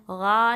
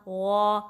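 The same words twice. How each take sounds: First: غا with a thin open a, not heavy; wrong demo, غا light and flattened; wrong light ghain. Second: غا with heavy, dark long alif; loud held غا, sound trapped at raised back tongue; heavy ghain. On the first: Teacher showing the mistake, غا without heaviness. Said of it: "غا نہیں پڑھنا". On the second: Teacher showing the correction, heavy trapped غا. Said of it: "الف بھی heavy پڑھنا ہے". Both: Shown as a demonstration.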